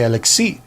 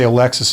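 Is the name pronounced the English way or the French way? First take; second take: French; English. First: The name is said with a French pronunciation. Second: The name is said with an English pronunciation. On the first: "If you're French, you'd say" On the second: "if you're English, you would say"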